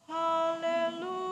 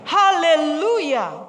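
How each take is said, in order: First: It is said with fading, weaker energy. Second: It is said with strong, rising emphasis.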